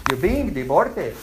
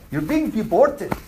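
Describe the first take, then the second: First: Deported said in a Pakistani accent. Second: Said in the usual way. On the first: Shown as a demonstration. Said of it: "The Pakistani accent".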